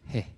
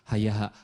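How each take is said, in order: First: It is a short breathy pant, like gasping. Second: It is spoken as one smooth three-syllable word. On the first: The speaker calls it right. "Siti Aisyah kecapean" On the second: The speaker calls it wrong. "Nggak begitu dibacanya"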